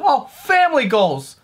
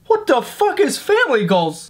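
First: Slowly drawn-out gushing comment; mock commenter. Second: Said in the usual way. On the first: Mocking a commenter on his family photo, slow gush. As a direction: stretch it like a cheesy fan. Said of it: "someone comment on a picture".

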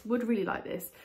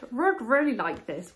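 First: Said in the usual way. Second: "Rud" said with an R in place of the W of "would"; slip of the tongue. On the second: Real, not acted. Vlogger trips over "would" while showing the planter, stumbling.

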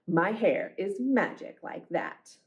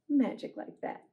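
First: Storybook refrain. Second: Soft echo. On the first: A narrator's reading. Closing refrain of the book. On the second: Shown as a demonstration. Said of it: "echoes the refrain softly".

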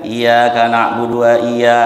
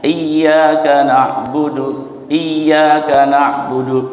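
First: "iya, Kak" said flat with no pressure on "iya"; unstressed wrong reading. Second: "Iya" pressed and raised on both takes; stressed nabr. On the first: Teacher showing the wrong, unstressed reading. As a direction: slur "iya, Kak" without the stress. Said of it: "kalau nggak ditekan". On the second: Teacher showing the nabr stress on "Iya", pressed and raised. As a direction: lean hard on "Iya", then "Kak, na'budu". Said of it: "Nabr itu intonasinya ditekan, ditinggikan". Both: Shown as a demonstration.

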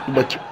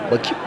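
First: Softer, peering into the pot; muttered to self. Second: Said in the usual way. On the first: Acted. Cat peering into the pot, muttering softly. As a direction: mumble it while looking inside.

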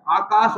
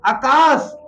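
First: "आकाश" with long aa, aa-kaas, lower; correct pronunciation. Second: "आकाश" with short first vowel, a-kaas; wrong pronunciation. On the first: Teacher answers with corrected "आकाश", long aa-kaas. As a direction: stretch the opening vowel of "आकाश". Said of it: "वो क्या होता है". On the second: Teacher shows faulty "आकाश", short a-kaas. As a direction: open "आकाश" on a brief a. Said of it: "पर आकाश नहीं होता". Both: Shown as a demonstration.

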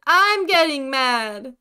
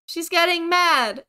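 First: Loud, slow "I'm getting mad", leaning hard on "I'm". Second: "She's getting mad" loud and higher, pitched up as an outcry; mad retort. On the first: Player answering the ghost's anger, "I'm" hit hard and slow. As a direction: stretch and punch "I'm" in angry retort. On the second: Player riled by the angry ghost, "She's getting mad" cried high. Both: Real, not acted.

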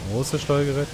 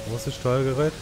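Both takes have the same delivery.

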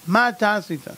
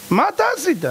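First: Said in the usual way. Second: High, pressing question; rising accusing demand; demanding high call. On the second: Shown as a demonstration. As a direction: demand "מה אתה עשית?" up high with stress on "אתה". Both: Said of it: "repeated question raised".

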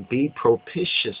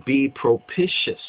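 No difference in how they are said.

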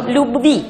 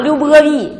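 First: Quick burst on б in любви, no vowel after it; crisp plosive b. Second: Любови with an extra vowel after б, the wrong way; wrong drawn-out b. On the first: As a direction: snap the lips once for любви. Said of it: "爆破音叫瞬间完成". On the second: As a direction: drag the б in любови into a syllable. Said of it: "你要把它拖长，любови就不对了". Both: Shown as a demonstration.

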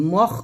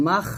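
First: মখ with a rounded "o", like "mokh"; wrong rounded vowel. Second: মাখ with open "aa" before the raspy kh; correct open vowel. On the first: Teacher showing what not to say, rounded মখ. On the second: Teacher correcting the rounded vowel, open "aa" in মাখ. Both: Shown as a demonstration. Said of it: "মখ বলবেন না".

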